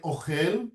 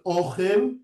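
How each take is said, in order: First: "ochel" stressed on the last syllable, o-CHEL; mil'ra stress. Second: "ochel" stressed on the first syllable, O-chel; mil'el stress. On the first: Teacher asking about the difference, "ochel" with final stress. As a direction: land on the end of "ochel". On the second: Teacher asking about the difference, "ochel" with first-syllable stress. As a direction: lean on the O of "ochel". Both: Shown as a demonstration. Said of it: "besides the accent".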